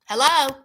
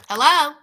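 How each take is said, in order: Both takes have the same delivery.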